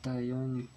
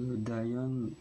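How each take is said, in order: First: The first sound is close to a t. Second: The first sound is a plain d.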